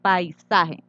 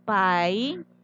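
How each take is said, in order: First: Said in the usual way. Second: Paisaje muy lento: pai... sa... je; separado en sílabas. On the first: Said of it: "Al dividir". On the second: Shown as a demonstration. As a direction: alargar cada sílaba de paisaje con pausas largas. (paisaje dividido en tres sílabas sueltas)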